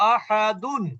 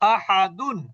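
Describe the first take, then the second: No difference in how they are said.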